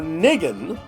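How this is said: The word is said with a Yiddish pronunciation. "if you pronounce it with the Yiddish inflection"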